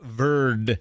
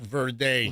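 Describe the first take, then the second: First: Verde is said with an English pronunciation. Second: Verde is said like the Spanish word. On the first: The speaker calls it right. "It is pronounced Cape Verde" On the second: The speaker calls it wrong. "It's not like green in, in Spanish"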